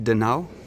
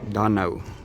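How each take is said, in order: First: The stress is on the second part. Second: The stress is on the first part. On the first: The speaker calls it wrong. "for me, I pronounce it de nou" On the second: The speaker calls it right. "The emphasis is on the first part"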